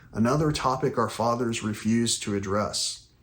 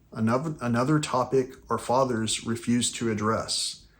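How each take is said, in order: The two takes are said the same way.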